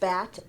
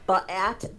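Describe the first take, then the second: First: The B runs straight into the vowel. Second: An extra vowel follows the B sound. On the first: The speaker calls it right. "we say bat" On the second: The speaker calls it wrong. "we don't say ba-at"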